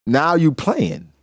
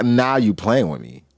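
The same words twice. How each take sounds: First: Playing stretched out slowly and a bit higher; slow, drawn-out Blackbeard. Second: Said in the usual way. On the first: Blackbeard taunting Thatch, slow and drawn out. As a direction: lean back and drag out playing.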